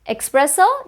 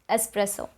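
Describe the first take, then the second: First: The first syllable sounds like 'ex', with a 'ks'. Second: The first syllable sounds like 'ess', without a 'ks'. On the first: The speaker calls it wrong. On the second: The speaker calls it right. "There's no X in the spelling"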